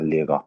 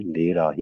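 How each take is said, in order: First: The r is said like a throaty gh sound. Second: The r is said as a plain r sound. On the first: "German जो एक्सेंट है उसके मुताबिक ये गैन की साउंड देगा" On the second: "Pakistani एक्सेंट या Asian accent के लोग जर्मनी में रह के भी इसको लेरा ही पढ़ते हैं"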